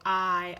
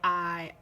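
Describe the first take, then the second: The two takes are said the same way.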